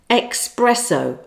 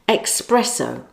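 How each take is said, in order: First: It begins with an 'ex' sound, like express. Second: The same.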